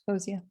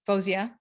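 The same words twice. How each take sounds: First: The stress falls before the last syllable. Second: The stress falls on the last syllable. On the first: This is the everyday way of saying the name. "But yeah, Fozia" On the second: This is how the name is said in Farsi. "in Farsi, it's Fozia, with the accent on the um, last syllable"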